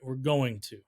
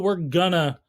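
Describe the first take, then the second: First: It is said in full as 'going to'. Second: It is reduced to 'gonna'. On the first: "It's a variable pronunciation of going to" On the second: "lots of people are going to say the phrase "gonna,""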